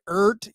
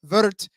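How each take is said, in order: First: The name begins with a vowel sound. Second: The name begins with a W sound. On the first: This is how Americans say it. "Americans say Ert" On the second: This is how Germans say it. "Germans say it's Wirt"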